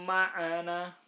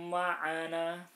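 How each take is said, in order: No difference in how they are said.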